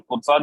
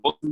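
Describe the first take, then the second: First: फोर्साज with a long final aa and a z ending; Forsaaj pronunciation. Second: फोर्सेस said like English forces, short e, s ending; Forces pronunciation. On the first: Presenter shows one way people say the name, Forsaaj pronunciation. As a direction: say फोर्साज as Forsaaj, stretching the second syllable. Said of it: "कुछ लोग फोर्साज बोलते हैं". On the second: Presenter shows the other way people say it, Forces pronunciation. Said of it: "कुछ लोग फोर्सेस बोलते हैं". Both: Shown as a demonstration.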